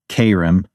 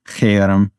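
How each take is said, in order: First: It has a plain k and an unrolled r. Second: It has a throaty ch and a rolled r. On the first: The speaker calls it wrong. "I pronounce it Kerem. I suppose that's maybe not the best Hebrew pronunciation" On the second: The speaker calls it right. "It's got a Hebrew ch and then a rolled R"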